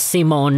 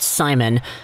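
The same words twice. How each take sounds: First: The name is said with a Swedish pronunciation. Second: The name is said with an English pronunciation. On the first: The speaker calls it right. "he's Swedish, it's Simon" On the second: The speaker calls it wrong. "not Simon"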